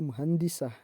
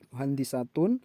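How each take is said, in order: First: The word ends with a clipped '-ah' ending. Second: The word ends with the full '-atun' ending. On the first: The reader stops at this word. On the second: The word is read on without stopping.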